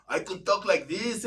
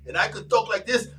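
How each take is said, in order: First: Code-switch voice. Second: Said in the usual way. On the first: Shown as a demonstration. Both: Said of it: "I learned how to code switch".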